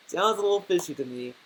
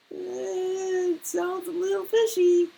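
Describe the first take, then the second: First: Said in the usual way. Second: Very high, put-on doubtful voice; high-pitched suspicion. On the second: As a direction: squeak out the doubt far above your normal pitch. Skeptical verdict on the begging theory.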